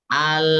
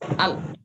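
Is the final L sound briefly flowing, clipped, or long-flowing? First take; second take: long-flowing; clipped. First: The final L flows on for long. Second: The final L is cut off abruptly. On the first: "Seperti rokhawah" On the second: "seperti syiddah"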